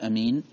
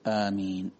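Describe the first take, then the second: First: The first vowel is short. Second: The first vowel is long. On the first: "يجوز فيها المد والقصر، أي مد الهمزة وقصرها" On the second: "والمد أولى"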